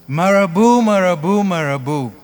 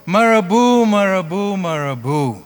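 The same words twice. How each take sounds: The two takes are said the same way.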